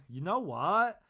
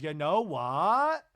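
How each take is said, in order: First: Said through a laugh, slowed. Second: Loud, slow, pointed build-up; emphatic setup. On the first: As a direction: repeat it, amused, laughing. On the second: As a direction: start a firm answer with weight. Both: Retold or imitated. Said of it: "And Lisa goes".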